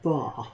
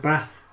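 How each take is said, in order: First: It is said in a southern accent. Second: It is said in a northern accent. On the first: "if you're in the south, it's bar" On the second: "if you're up north, they have a bath"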